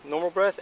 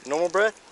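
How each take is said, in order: First: Normal breath repeated high and loud; firm correction. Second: Normal breath pressed high and loud; firm correction. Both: Real, not acted. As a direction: stress breath, coaching him. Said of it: "No, no, no".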